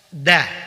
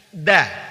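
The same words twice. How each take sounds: No difference in how they are said.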